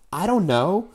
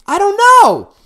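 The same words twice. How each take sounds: First: Said in the usual way. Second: High, loud outburst; exasperated shout. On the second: Real, not acted. Venting to the host about his ex, exasperated shout. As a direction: throw your hands up and yell it. Repeats phrase, second blown up.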